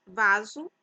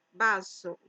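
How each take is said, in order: First: Vaso said the Portuguese way, real V and Z, louder: VA-zu; Portuguese pronunciation. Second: Vaso said the Spanish way, B sound and sharp S: BA-so; Spanish pronunciation. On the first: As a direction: say vaso with a buzzing V and a Z in the middle. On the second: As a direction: say vaso as in Spanish, starting with a B and a clear S. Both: Shown as a demonstration. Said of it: "vaso se pronuncia vaso".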